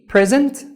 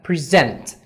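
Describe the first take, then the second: First: The stress is on the first syllable. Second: The stress is on the second syllable. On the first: It means a gift. "تقدر تسترس على P present تبقى هدية" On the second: It means to offer or give. "آخر مقطع لفظي هيبقى present اللي هي يقدم"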